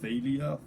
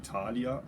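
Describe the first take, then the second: First: The name is given an English pronunciation. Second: The name is given a German pronunciation. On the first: "I don't know how you pronounce this in English, maybe Thalia" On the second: "In German it would be Thalia"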